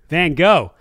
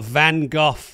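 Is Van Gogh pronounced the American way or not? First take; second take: American; non-American. First: Van Gogh is said the American way. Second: Van Gogh is said the speaker's usual, non-American way.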